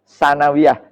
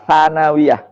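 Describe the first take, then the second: The two takes are said the same way.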